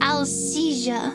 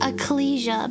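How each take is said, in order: First: The L sound comes before the S sound. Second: The L sound comes after the K sound. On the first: "now I pronounce it Alcesia" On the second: "used to pronounce it Ecclesia"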